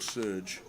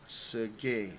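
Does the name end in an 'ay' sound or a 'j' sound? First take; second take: j sound; ay sound. First: The name ends with a 'j' consonant sound. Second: The name ends with an 'ay' vowel sound. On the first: The speaker calls it wrong. "So it's no Serge" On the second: The speaker calls it right. "but it's Sergei, not J"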